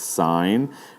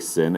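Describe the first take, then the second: First: It has a long vowel, like 'sign'. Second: It has a short vowel, like 'sin'. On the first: The speaker calls it right. "it's sine" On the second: The speaker calls it wrong. "Do not say sin"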